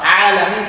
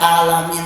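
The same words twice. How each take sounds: First: It begins with a voiced throat 'ain' consonant. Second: It begins with a plain glottal stop. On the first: The speaker calls it right. "alamin pakai ain" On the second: The speaker calls it wrong. "dibaca alamin pakai hamzah"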